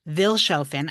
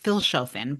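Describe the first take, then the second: First: The name begins with a V sound. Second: The name begins with an F sound. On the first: The speaker calls it wrong. "I'm never going to pronounce it properly" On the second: The speaker calls it right. "it's pronounced actually with like an F sound"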